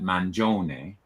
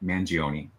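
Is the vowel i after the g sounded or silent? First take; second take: silent; sounded. First: The i after the soft g is silent. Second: The i after the g is sounded. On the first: This is the original Italian pronunciation. "if in Italy, you would pronounce that Mangione" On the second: This is the Americanized pronunciation. "which is sort of the Americanized version of it"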